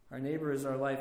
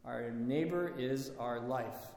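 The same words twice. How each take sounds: First: Said in the usual way. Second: Slow, reverent quoting of a saint; slow solemn quote. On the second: Retold or imitated. Preacher quoting Saint Silouan to the congregation, slow and reverent. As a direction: let each word land slowly, as a sacred saying. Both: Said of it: "Saint Silouan says".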